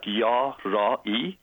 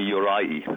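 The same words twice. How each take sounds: First: "Yarai" slowly in syllables, yah... rah... ee; real pronunciation, broken down. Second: "Yorai" run together as yo-RYE-ee; quick American-style YORAI, first vowel changed; Americanized pronunciation. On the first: Guest teaching host his surname, slow syllable by syllable. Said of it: "the real pronunciation is". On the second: Guest showing how Americans say his surname, Americanized pronunciation. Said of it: "here in America". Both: Shown as a demonstration.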